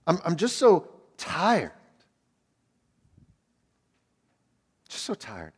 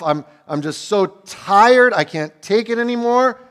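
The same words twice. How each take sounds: First: Barely getting the words out, spent; exhausted. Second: Loud, higher, dragged-out despair; desperate outcry. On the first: Retold or imitated. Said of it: "can you hear the tiredness in his voice there". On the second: Acted. David crying that he can't take any more, loud and desperate. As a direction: push it out at the breaking point.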